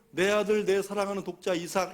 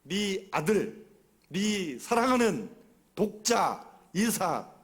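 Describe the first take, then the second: First: The phrase is read smoothly without separating words. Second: Each word is read distinctly with pauses between. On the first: The words carry no particular meaning. The speaker calls it wrong. "이렇게 읽으면 아무런 의미가 없어요" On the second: Each word is emphasized to show deep love. The speaker calls it right. "또박또박 한번 읽어보세요"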